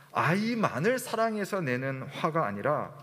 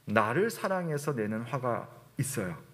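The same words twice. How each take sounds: First: 아이만을 picked out with a pitch swing; stress on 아이만을. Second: 나를 picked out, then falling away lower; stress on 나를. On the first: Preacher contrasts anger for the child with selfish anger, stress on 아이만을. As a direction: lean on 아이만을 as the contrasted word. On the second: Preacher admits some anger is love of oneself, stress on 나를. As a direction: lean on 나를 as the contrasted word. Contrasts loving child with loving oneself. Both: Shown as a demonstration.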